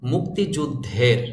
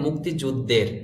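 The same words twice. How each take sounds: First: The consonant before the ending is breathy-aspirated. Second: The consonant before the ending is plain, unaspirated. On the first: The speaker calls it right. "শব্দটির সঠিক উচ্চারণ হবে" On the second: The speaker calls it wrong. "অনেকে আমরা বলি"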